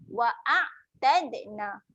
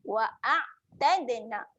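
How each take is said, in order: The two takes are said the same way.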